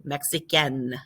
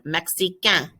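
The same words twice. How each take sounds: First: Mexicaine ending in a clear N sound; Mexicaine, N pronounced; feminine Mexicaine. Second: Mexicain ending in a nasal vowel, no N heard; Mexicain, silent N; masculine Mexicain. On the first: Teacher models the girl form, N heard. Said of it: "The girl one, you do". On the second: Teacher models the male form, no N. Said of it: "you don't hear the N". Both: Shown as a demonstration.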